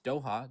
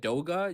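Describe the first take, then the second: First: The name is said in a plain, normal way. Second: The name is said in a mocking, distorted way. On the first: This is how the name should be said. The speaker calls it right. "It's Doha" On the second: This is how the other person said it. The speaker calls it wrong. "You you didn't pronounce it correctly"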